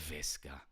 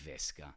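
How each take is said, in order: First: The word begins with a B sound. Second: The word begins with a V sound. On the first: The speaker calls it right. "the V, is pronounced as a B" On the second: The speaker calls it wrong. "Don't say Visca"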